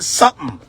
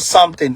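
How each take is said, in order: First: The 't/th' sound in the middle is dropped. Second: The 't/th' sound in the middle is fully pronounced. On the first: The speaker calls it right. "you don't need to pronounce that T" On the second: The speaker calls it wrong. "that is not something"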